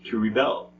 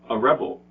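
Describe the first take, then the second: First: The stress is on the second syllable. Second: The stress is on the first syllable. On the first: It names the action of rebelling. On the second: It names a person who rebels.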